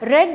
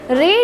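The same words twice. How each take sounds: First: The vowel is short, like in bed. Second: The vowel is long, like in need. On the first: It is the past form of the verb. "but read is the past form of this verb" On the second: It is the present form of the verb. "Read is the present form"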